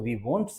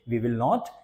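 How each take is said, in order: First: The two words are contracted into one. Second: Both words are said in full.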